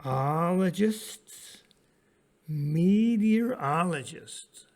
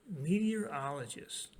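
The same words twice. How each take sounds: First: Slow, sounded out. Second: Said in the usual way. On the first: Shown as a demonstration. Teacher to students, sounding out a big word slowly. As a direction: draw out meteorologists syllable by syllable, slow and loud. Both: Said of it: "here's a big word".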